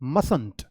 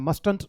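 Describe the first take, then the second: First: No t sound is heard before the n. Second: A t sound is heard before the n. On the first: The speaker calls it right. "The negative contracted form of model must is मसंट" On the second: The speaker calls it wrong. "मस्टंट नहीं होता इसकी pronunciation"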